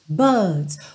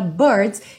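First: It has a British accent with a longer vowel. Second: It has an American accent with a curled R.

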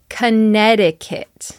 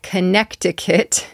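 First: No k sound is pronounced in the middle. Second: A k sound is pronounced in the middle. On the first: The speaker calls it right. "there's also a silent C in the middle" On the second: The speaker calls it wrong. "It looks like Connecticut"

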